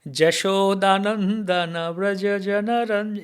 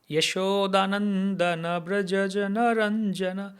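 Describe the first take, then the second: First: The first word begins with a j sound. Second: The first word begins with a y sound. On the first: This is the Bengali reading. "But in Bengali" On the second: This is the Devanagari reading. "in Devanagari, we'll say ya"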